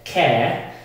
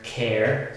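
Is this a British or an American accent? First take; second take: British; American. First: The r after the vowel is not pronounced. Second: The r after the vowel is clearly pronounced. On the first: "Typical silent sound or schwa sound in British" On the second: "In American English, we have this r sound"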